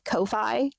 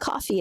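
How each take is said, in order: First: It is said to rhyme with lo-fi. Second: It is said like the word coffee. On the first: The speaker calls it wrong. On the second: The speaker calls it right.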